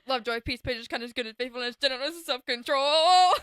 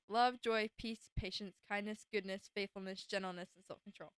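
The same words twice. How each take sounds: First: The list is said very fast. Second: The list is said slowly.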